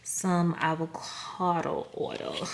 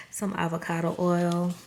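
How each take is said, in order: First: "Some avocado oil" stretched out slowly, each word drawn long; odd drawn-out delivery. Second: Said in the usual way. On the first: Real, not acted. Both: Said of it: "I don't know why I said it like that".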